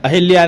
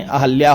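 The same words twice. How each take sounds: First: "अहिल्या" said with i after h, ahilya; the incorrect "अहिल्या"; wrong form. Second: "अहल्या" said without i, ahalya; the correct "अहल्या", no i; correct form. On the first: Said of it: "अहिल्या नहीं". (गलत रूप "अहिल्या") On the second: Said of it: "अहल्या होता है". (सही रूप "अहल्या") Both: Shown as a demonstration.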